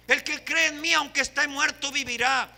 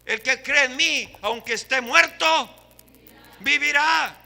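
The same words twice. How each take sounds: First: Said in the usual way. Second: Louder ringing proclamation of the verse; proclaimed scripture. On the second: Real, not acted. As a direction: declaim the promise to the room. Preacher quoting scripture loudly.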